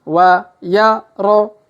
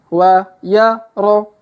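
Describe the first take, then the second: The two takes are said the same way.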